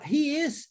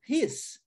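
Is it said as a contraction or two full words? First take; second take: full words; contraction. First: Two full words are said separately. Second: The words merge into one quick syllable.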